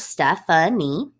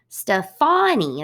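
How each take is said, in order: First: The stress is on the first syllable. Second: The stress is on the second syllable. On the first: This is how the name is said in English. "We put our emphasis on the first syllable" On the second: This is how the name is said in France. "they put the emphasis on the second syllable"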